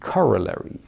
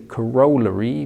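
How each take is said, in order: First: It is said with an American pronunciation. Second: It is said with a British pronunciation. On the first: The speaker calls it right. "it should rather be corollary" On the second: The speaker calls it wrong. "the U K, the English pronunciation"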